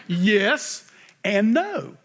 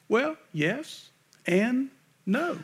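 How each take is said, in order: First: "Yes and no" drawn out very slowly with a falling no; emphatic, settled yes and no; very slow, firm yes and no. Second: Drawn-out yes and no with a rising end; slow, questioning yes and no. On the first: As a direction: land the no down hard. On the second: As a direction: stretch it slowly and lift the no. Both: Shown as a demonstration. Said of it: "How do you like that for a politically correct answer?".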